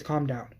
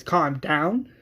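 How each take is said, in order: First: Soft, falling request; calming. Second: Offended question with a rising end; indignant, rising retort; incredulous echo. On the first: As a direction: quietly settle someone down. Strand's take, answered by Madison. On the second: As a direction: throw the words back in disbelief. Madison throws the words back. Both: Acted.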